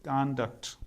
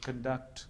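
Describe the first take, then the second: First: कॉन्डक्ट with an open ah first vowel, KAHN-duct; American noun कॉन्डक्ट, ah sound first; American pronunciation. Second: कंडक्ट with a short neutral first vowel, kuhn-duct; British noun कंडक्ट, uh sound first; British pronunciation. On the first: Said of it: "लेकिन American English में होता है ये". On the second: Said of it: "British English में यही sound होता है". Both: Shown as a demonstration.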